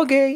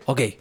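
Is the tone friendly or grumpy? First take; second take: friendly; grumpy. First: It sounds friendly and good-natured. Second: It sounds grumpy and curt.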